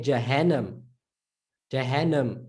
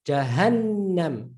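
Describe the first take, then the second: First: Jahannam read English-style with a short single N; quick undoubled N in Jahannam. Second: Jahannam slowly, holding the N long; doubled N. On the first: Teacher showing how English would read Jahannam, English reading. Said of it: "Now, if that was English". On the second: Teacher showing Arabic pronunciation of Jahannam, doubled N. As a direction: stretch the N in Jahannam. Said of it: "Listen to Jahannam". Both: Shown as a demonstration.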